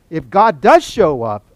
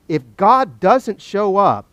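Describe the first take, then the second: First: Slow, loud setup punching "does"; stress on DOES. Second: Slow, louder setup leaning on "doesn't"; stress on DOESN'T. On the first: Preacher laying out Job's second case, loud stress on "does". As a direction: hit "does" hard, taking your time. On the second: Preacher laying out Job's first case, stress on "doesn't". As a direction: punch "doesn't" in a slow, raised voice. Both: Acted.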